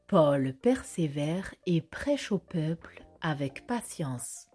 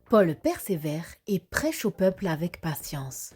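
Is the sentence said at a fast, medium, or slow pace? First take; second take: slow; medium. First: The sentence is said slowly. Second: The sentence is said somewhat quickly. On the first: "Répétons-la lentement" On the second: "un peu plus rapidement"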